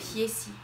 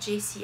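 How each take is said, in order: First: The name begins with a Y sound. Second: The name begins with a J sound. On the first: The speaker calls it wrong. "les J, elle n'arrive pas à le dire. Donc elle dit yeah" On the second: The speaker calls it right. "pas Jessie"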